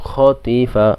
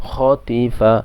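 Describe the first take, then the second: Both takes have the same delivery.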